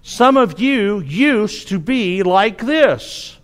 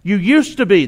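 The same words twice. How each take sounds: First: Each word slow and deliberate, quoting the verse; slow scripture reading. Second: "used" pressed and set apart, the rest falling away; stress on used. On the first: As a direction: read the verse slowly, letting it sink in. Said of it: "because of verse eleven". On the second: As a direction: lean hard on "used" to point at the past. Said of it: "That's the key part there". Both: Shown as a demonstration.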